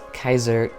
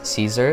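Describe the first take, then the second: First: The word begins with a K sound. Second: The word begins with an S sound. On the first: "technically you could pronounce this as Kaiser" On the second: "I think it's okay that you just say Caesar"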